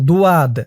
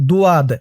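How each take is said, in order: The two takes are said the same way.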